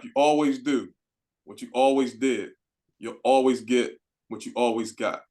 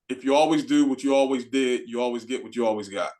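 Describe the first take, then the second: First: It is said at a slower pace. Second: It is said at a faster pace.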